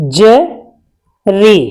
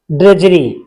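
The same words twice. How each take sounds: First: ड्रजरी stretched out slowly, syllable by syllable; slow drudgery. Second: Said in the usual way. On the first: Shown as a demonstration. Teacher modelling ड्रजरी slowly for students. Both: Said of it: "बता देता हूं".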